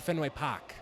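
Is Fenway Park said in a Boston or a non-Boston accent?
Boston. It is said in a local Boston accent. The speaker is a real local. The speaker calls it right. "this gentleman's authentic because he said"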